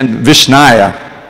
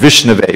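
First: The word ends with an -aya sound. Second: The word ends with an -ave sound. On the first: The speaker calls it wrong. "the Chandal will chant Vishnaya" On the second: The speaker calls it right. "which is the actual form"

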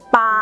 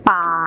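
First: The syllable is said on a level mid pitch. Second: The syllable is said on a low pitch. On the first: "ปามีพื้นเสียงเป็นเสียงสามัญ" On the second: "ป่ามีรูปวรรณยุกต์เอกมีเสียงวรรณยุกต์เอก"

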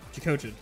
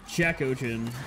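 First: The two parts run together quickly as one word. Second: The two parts are said separately and clearly enunciated. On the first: "combine them and say them really quickly" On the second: "technically not wrong"

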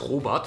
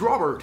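First: The name is pronounced with German sounds. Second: The name is pronounced with English sounds. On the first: The speaker sounds like a German speaking English. The speaker calls it wrong. "seinen Namen nicht Deutsch ausspricht" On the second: The speaker sounds like a native English speaker. The speaker calls it right. "Name Englisch aussprechen"

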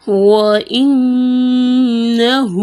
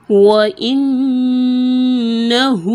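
No difference in how they are said.

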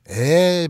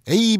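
First: The letter is said as a long 'e'. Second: The letter is said as a full 'ei'. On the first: The speaker calls it right. "일본 애들은 에" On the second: The speaker calls it wrong. "이렇게 읽지 않죠"

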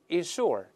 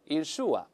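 First: The ending has a curled r-sound. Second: The ending has no curled r-sound. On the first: "我们大声再读一下" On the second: "英国人都是insure，insure，后面没有卷舌音罢了"

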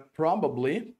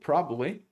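First: Every syllable of the word is pronounced. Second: Some sounds of the word are dropped.

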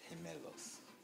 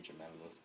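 First: The word is said with a Spanish accent. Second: The word is said with an English accent. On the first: "what he means is gemelos" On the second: "For English people, they might say gemelos"

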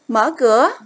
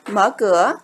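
First: It is said as a forceful command. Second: It is said as a calm, plain statement. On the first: It asks someone to open the door. "chúng ta xác định đây là một câu cầu khiến" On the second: It reports what the speaker is doing. "Đây là một câu trần thuật"

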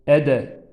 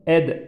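First: A short vowel is heard after the final d. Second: It ends on the d with no vowel after it. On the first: The speaker calls it wrong. "bu cezimli kalkale harfine hareket vermememiz lazım. Yani ede" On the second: The speaker calls it right. "hareket sesi duyulmaması lazım. Ed, id, üd şeklinde"

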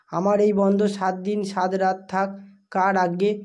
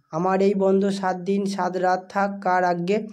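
No difference in how they are said.

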